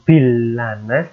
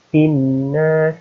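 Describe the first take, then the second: First: The L sound is pronounced before the N. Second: The L merges into a doubled N sound. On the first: The speaker calls it wrong. "bukan bilanas" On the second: The speaker calls it right. "tapi binnas, karena ini ada tasydid"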